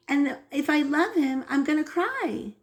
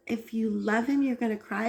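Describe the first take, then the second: First: Lightly voiced little boy, higher; a hint of a child stating it simply, higher; mother imitating her son's earnest reasoning, higher; young son explaining. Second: Mother echoing her son to draw him out; questioning echo. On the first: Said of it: "And he said". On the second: Retold or imitated. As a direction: repeat his words back as a curious question. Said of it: "So I was like".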